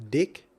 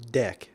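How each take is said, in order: First: "Dick" with a short i vowel, rising; a clear i in "Dick", tune going up; saying dick. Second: "deck" with an open e vowel, falling; a clear e in "deck", tune dropping; saying deck. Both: Shown as a demonstration. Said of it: "listen to the difference".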